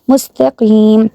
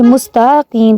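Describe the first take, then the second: First: مستقیم said mustaqim, crisp; correct short ta. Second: مستقیم with the ta drawn out; مستقیم said mustaa-qim; wrong long ta. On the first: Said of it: "تا کو لمبا نہیں کرنا". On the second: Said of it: "sisters کیا غلطی کرتی ہیں". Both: Shown as a demonstration.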